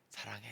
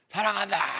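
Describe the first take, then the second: First: It is said quietly in a low voice. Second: It is shouted loudly.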